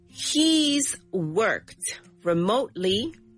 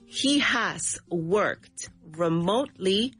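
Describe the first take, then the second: First: The subject and verb are joined in a contraction. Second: The subject and verb are said as separate words.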